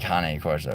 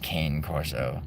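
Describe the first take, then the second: First: Cane is said the Italian way, with two syllables. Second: Cane is said the English way, with one syllable. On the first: The speaker calls it right. "So you say cane corso" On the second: The speaker calls it wrong. "nobody says cane corso"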